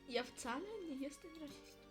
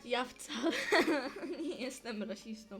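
First: The line is spoken quietly, barely audible. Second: The line is spoken more loudly and clearly. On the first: "bo cię ledwo słychać" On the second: "Mów głośniej"

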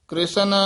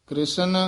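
Both takes have the same delivery.

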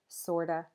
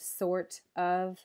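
First: The word 'of' is reduced to a weak vowel. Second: The word 'of' is said in full. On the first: "you'll just hear sorta" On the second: "instead of sort of"

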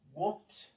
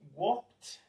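Both takes have the same delivery.

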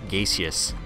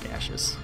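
First: The word is said the British way. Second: The word is said the American way. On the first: This is the form others may prefer. "or gaseous, if you prefer" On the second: This is the form the speaker uses. "although I would say gaseous"

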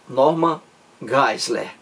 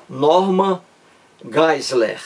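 The two takes are said the same way.

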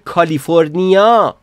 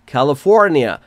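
First: It is pronounced with a Persian accent. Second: It is pronounced with an English accent.

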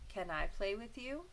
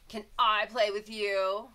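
First: The voice sounds calm and kind. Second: The voice sounds harsh and unfriendly. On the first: The request sounds friendly and respectful. The speaker calls it right. "a nice, calm and kind voice" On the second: The request sounds rude and demanding. The speaker calls it wrong. "She doesn't want to say"

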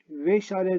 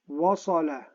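First: The first vowel is a front 'e'. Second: The first vowel is a back, open 'a'. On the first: The speaker calls it wrong. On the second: The speaker calls it right.

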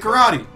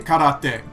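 First: It is said with an American English pronunciation. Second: It is said with a Japanese-style pronunciation. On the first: "Americans say karate" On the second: "Americans don't say karate"

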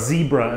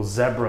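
First: Zebra is said the American way. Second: Zebra is said in a non-American way.

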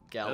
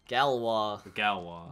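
First: The name ends in an English 'way' sound. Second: The name ends in a French 'wah' sound. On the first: The speaker calls it wrong. "it was Galloway" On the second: The speaker calls it right. "I know a bit more pronunciation"

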